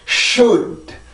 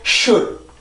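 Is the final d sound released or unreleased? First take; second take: released; unreleased. First: The final d is audibly released. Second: The final d is held without release. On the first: "이렇게 혀를 떼도 상관이 없고" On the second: "이렇게 혀를 떼지 않아도 상관은 없어요"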